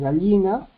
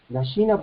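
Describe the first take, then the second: First: The double l is a lateral l-like sound. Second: The double l sounds like a y.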